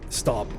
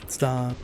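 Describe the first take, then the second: First: It is said in a firm, forceful voice. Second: It is said in a weak, effeminate voice.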